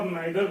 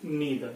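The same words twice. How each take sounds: First: "neither" with an eye sound, as NIGH-ther; NIGH-ther, not NEE-ther, for "neither"; "eye" pronunciation. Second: "neither" with a long EE, as NEE-ther; NEE-ther, not NIGH-ther, for "neither"; "ee" pronunciation. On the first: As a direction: say "neither" with the vowel of "night". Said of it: "भी pronounce कर सकते". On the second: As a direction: say "neither" with the vowel of "knee". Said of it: "इसको आप either और neither भी pronounce कर सकते". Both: Shown as a demonstration.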